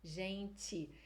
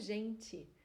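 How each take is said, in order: The two takes are said the same way.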